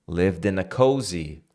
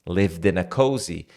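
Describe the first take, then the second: Both takes have the same delivery.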